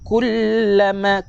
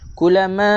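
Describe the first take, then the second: First: The l sound is doubled and held longer. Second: The l sound is short and single. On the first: The speaker calls it right. "Kena baca kullama" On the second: The speaker calls it wrong. "Jangan baca seperti ini"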